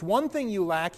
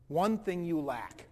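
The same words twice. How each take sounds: First: Said in the usual way. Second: Slow, weighty delivery leaning on one; a slow, solemn verdict; slow, grave. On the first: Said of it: "he said". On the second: Retold or imitated. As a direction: let each word land slowly. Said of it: "he said this to me".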